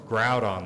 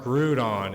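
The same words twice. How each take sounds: First: The first syllable sounds like "ground". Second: The first syllable sounds like "groo". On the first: The speaker calls it right. "it's Groudon, like ground" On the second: The speaker calls it wrong. "it's not Groudon"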